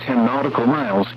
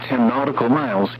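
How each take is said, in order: Both takes have the same delivery.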